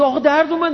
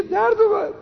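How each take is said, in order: First: Put-on high, whining child's complaint; whiny pupil. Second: Put-on very high, squeaky childish whine; mock the pupil's complaint at its most childish; exaggerated whine. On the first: Pupil whining to his teacher after the stick, high and plaintive. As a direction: plead like a kid just smacked on the hand. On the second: Pupil squealing to the teacher that it hurt, very high mock whine.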